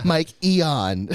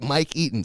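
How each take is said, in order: First: "Mike Eon" as "Mike EE-ahn", a wrong version of "Mike Eaton"; wrong name. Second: "Mike Eaton" said plainly as "Mike EE-tn"; own name said right. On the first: Admitting his typo to his friend, says "Mike Eon" as the wrong name. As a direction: read the misspelling "Mike Eon" out. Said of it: "Spelled my name wrong". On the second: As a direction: friend asked his name, says "Mike Eaton" as usual. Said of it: "Search it on Netflix". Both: Shown as a demonstration.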